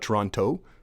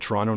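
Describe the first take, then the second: First: The last T sound is fully pronounced. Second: The last T sound is dropped. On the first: The speaker is not a local. "not Toronto" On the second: The speaker is a local. "you know I'm local because I said Toronto"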